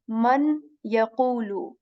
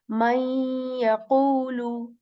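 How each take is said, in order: First: The n is clearly pronounced before the y. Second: The n is dropped and merges into the y. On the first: The speaker calls it wrong. "We will not say man yaqulu" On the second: The speaker calls it right. "we will kind of skip again Noon from here"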